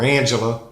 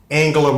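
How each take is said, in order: First: The name is said in a Texas accent. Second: The name is said in a standard accent.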